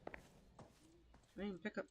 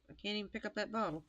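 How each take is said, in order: First: Muttered. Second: Said in the usual way. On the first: Real, not acted. Muttering while failing in game.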